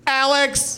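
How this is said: The name is said with loud excitement.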